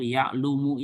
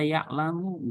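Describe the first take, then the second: First: The second syllable has a 'u' vowel. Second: The second syllable has an 'a' vowel. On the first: The speaker calls it wrong. "nggak boleh seperti yang suruh misal ya'lumu" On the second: The speaker calls it right. "ini harus dibaca ya'lamu"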